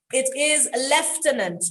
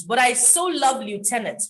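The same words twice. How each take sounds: First: Lieutenant said as lef-TEN-ant, British style; lieutenant with an F sound, lef-ten-ant. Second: Lieutenant said as loo-TEN-ant, American style. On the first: Teacher showing learners the British way, clear demo. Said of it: "lieutenant is English". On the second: Teacher admitting her favourite version, fond demo. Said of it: "Lieutenant is American". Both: Shown as a demonstration.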